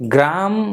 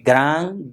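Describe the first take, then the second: First: The word ends with an m sound. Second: The word ends with an ng sound. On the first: The speaker calls it wrong. "ग्राम मत बोलिएगा" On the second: The speaker calls it right. "ङ का उच्चारण करना है"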